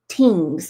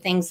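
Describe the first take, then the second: First: The word begins with a plain 't' sound. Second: The word begins with a 'th' sound.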